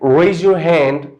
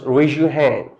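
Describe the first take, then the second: First: The z in 'raise' stays a plain z sound. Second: The z in 'raise' links into a zh sound. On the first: "if there's z sound at the end" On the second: "it is changed to zh, zh sound"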